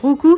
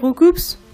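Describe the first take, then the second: First: The final P and S sounds are silent. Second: The final P and S sounds are pronounced. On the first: The speaker calls it right. "on est censé dire recou" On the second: The speaker calls it wrong. "on n'est pas censé dire recoups"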